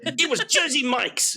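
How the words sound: It is said in an exaggerated fake Jersey accent.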